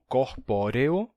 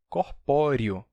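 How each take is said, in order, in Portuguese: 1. A penúltima vogal soa como e. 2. A penúltima vogal soa como i.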